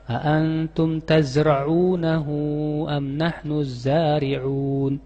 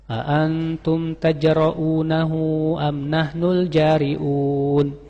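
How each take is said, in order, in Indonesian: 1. Huruf konsonan kuncinya dibaca sebagai z. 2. Huruf konsonan kuncinya dibaca sebagai j. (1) "Pakai zai dan ain" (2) "Saya pernah mendengar seorang imam membaca begini"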